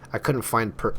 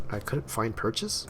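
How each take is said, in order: First: Said in the usual way. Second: Slow, rising, unsure of the wording; doubtful reread, lifting at the end; puzzled questioning. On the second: Real, not acted. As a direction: read it slowly as a question.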